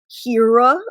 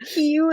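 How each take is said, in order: First: The name is said with an English accent. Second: The name is said with a Japanese accent.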